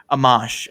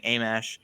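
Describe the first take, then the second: First: Amash said ah-MAHSH; corrected pronunciation. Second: Amash said AY-mash; mistaken pronunciation. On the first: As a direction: land on an open AH in the last syllable of Amash. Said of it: "I'm just used to people saying". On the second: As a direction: open Amash with a long AY. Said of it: "used to people saying Amash". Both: Shown as a demonstration.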